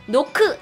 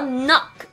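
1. 한국어 외래어로 발음해요. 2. 영어 발음으로 말해요. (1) "노크 아니고요" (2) "이렇게 외우셔야 돼요"

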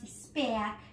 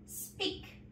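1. La vocal se lee como las letras e-a. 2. La vocal es un solo sonido 'ee' largo. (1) "la segunda no es speak" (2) "Sacamos la EA y la sustituimos por una I"

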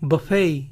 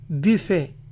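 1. Se dice a la manera inglesa, terminando en ay. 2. Se dice a la manera francesa, terminando en e. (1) "terminan diciendo ey ... la U ... va a sonar como una A cortita" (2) "en francés se pronuncia buffet, buffet, con sonido E final"

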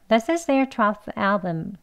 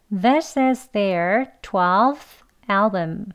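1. 이 문장은 빠른 속도로 말해요. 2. 이 문장은 보통 속도로 말해요.

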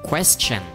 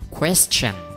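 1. Nhấn ở âm tiết đầu. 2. Nhấn ở âm tiết đầu.

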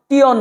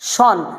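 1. শেষ অংশটি tee-on এর মতো উচ্চারিত হয়। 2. শেষ অংশটি shun এর মতো উচ্চারিত হয়। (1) "টিয়ন না" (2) "আমাদেরকে পড়তে হবে শন"

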